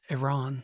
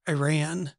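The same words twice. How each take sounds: First: It is said with a standard pronunciation. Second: It is said with an Oklahoma accent. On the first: The speaker calls it right. ""Dad, it's Iran."" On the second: The speaker calls it wrong. "I said Iran"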